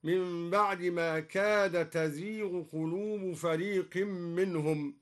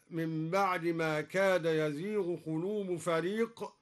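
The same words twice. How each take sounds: First: تزيغ with ta instead of ya; feminine reading. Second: Said in the usual way. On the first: Shown as a demonstration. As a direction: start تزيغ with a clear ta. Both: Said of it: "قرأها بالتأنيث هكذا".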